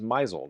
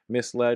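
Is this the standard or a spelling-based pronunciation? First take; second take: spelling-based; standard. First: It is said with a spelling-based pronunciation. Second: It is said with the standard pronunciation. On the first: The speaker calls it wrong. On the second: The speaker calls it right.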